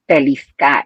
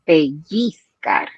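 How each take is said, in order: First: The double L is said as an L. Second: The double L is said as a Y. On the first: The speaker calls it wrong. "I read it pellizcar" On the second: The speaker calls it right. "instead of pellizcar"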